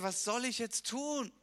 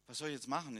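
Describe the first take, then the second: First: It is said as a desperate cry. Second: It is said in a calm, matter-of-fact tone.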